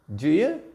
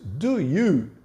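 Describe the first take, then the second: First: The word 'you' is reduced to 'ya'. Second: The word 'you' is pronounced in full. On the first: "to do you" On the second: "reduce do you"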